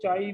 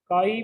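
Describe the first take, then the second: First: The word begins with a ch sound. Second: The word begins with a k sound. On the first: "चाई भी बोल सकते हो" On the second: "काई भी बोल सकते हो सिंबल को"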